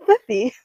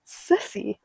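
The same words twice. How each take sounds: First: Thithy with th for each s; child's lisp. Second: Said in the usual way. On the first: Retold or imitated. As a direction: say thithy, lisping the s as th. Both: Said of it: "cute little lisp".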